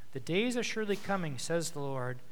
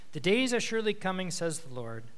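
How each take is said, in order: No difference in how they are said.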